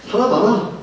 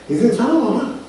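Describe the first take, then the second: First: Higher, with a chuckle; laughing inner jab. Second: 살아봐라 pushed higher with a falling end; stress on 살아봐라. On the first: Grown-up's private thought about the child, chuckling. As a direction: tease it through a laugh. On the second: Adult thinking about the child, stressing 살아봐라 with a fall. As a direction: lean knowingly on 살아봐라. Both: Retold or imitated. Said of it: "속으로는".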